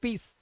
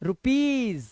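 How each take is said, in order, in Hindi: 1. शब्द का अंत s ध्वनि से होता है। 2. शब्द का अंत z ध्वनि से होता है।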